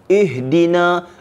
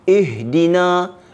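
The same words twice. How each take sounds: The two takes are said the same way.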